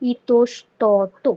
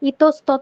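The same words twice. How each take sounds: First: It uses the standard careful pronunciation. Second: It uses the everyday colloquial pronunciation. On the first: "যখন প্রমিত উচ্চারণটা করবা তখন হবে" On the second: "ইতস্তত বলি আমরা"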